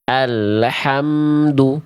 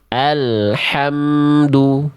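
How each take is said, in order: First: The L sound bounces with an added vowel. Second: The L sound flows smoothly without stopping. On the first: The speaker calls it wrong. "Karena memantul lam sukunnya" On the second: The speaker calls it right. "Bunyi lam sukunnya tidak tertahan"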